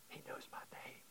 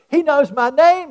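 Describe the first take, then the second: First: Hushed whisper of awe. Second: Put-on high, loud excited child. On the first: Shown as a demonstration. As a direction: breathe it out as a secret. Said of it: "whispered repeat of child's words". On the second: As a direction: blurt it out thrilled. Child's excited first take.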